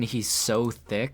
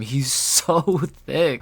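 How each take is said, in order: First: "so" drawn out slowly; stressed so. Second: "thick" blurted through a laugh. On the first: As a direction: linger slowly on "so". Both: Real, not acted. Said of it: "struggling to say anything other than".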